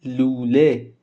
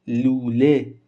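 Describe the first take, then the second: No difference in how they are said.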